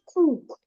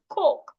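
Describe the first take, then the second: First: The vowel is long. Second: The vowel is short. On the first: The speaker calls it wrong. "not cook" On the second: The speaker calls it right. "the two O's will sound O"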